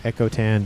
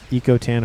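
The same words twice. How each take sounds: First: "Echo" said EK-oh; short-E pronunciation. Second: "Eco" said EE-koh; long-E pronunciation. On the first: Offering viewers the other way to say the player's name, short-E "Echo". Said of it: "how you pronounce his first half of his name". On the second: Offering viewers one way to say the player's name, long-E "Eco". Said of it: "depending, again, how you pronounce". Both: Shown as a demonstration.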